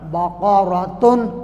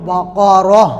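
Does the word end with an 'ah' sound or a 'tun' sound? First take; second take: tun; ah. First: The word ends with a full 'tun' syllable. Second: The word ends softly with an 'ah' sound. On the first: The recitation continues past this word. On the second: The reciter stops on this word.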